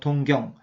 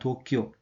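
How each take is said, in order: First: It is read as Dong-gyeong, Korean style. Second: It is read as Tokyo, Japanese style. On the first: "한국에는 이 한자의 발음대로 하면 동경입니다" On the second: "일본은 도쿄라고 읽습니다"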